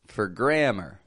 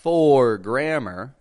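First: The word 'for' is flat, quick and reduced. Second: The vowel in 'for' is stretched and stressed. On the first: The speaker calls it right. "I'm keeping the sound flat, quick" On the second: The speaker calls it wrong. "I'm not stretching that O out like a for grammar"

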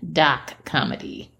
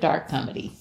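First: It is said with a Boston accent. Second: It is said with a standard accent.

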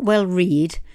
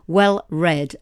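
First: The word 'read' rhymes with 'seed'. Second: The word 'read' rhymes with 'bed'. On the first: The speaker calls it wrong. "not well read" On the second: The speaker calls it right. "as in the colour"

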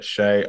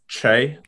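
First: The name begins with a sh sound. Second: The name begins with a ch sound. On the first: This is how others often say the name. "but I get Shay" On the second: This is the actual pronunciation of the name. "it's actually pronounced like Che. Like C. H-A-Y"

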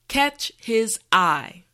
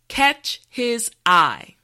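No difference in how they are said.

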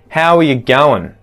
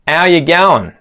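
First: Going is shortened to goin'. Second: The h sound of how is dropped. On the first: "Now let's contract going" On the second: "remove the H from the front of the word how"

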